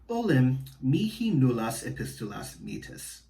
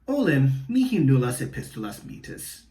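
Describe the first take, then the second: First: It is read in a flat, even voice. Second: It is read in a lively, acted voice. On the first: "a more flat reading" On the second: "acting it out a little bit more, hamming it up"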